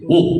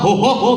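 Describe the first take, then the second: First: The laugh is low and deep. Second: The laugh is shrill and high. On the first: "Santa kan kalau ketawa gitu ya" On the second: "nadanya cempreng, treble gitu tinggi"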